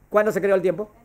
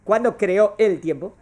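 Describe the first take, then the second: First: Said in the usual way. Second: Slow question, each word set apart in "¿Cuándo creó el tiempo?"; slow emphatic question. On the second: Real, not acted. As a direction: spell out "creó el tiempo" slowly, ending on a rise. Question repeated slowly for emphasis. (pregunta lenta y enfática, separando "creó el tiempo")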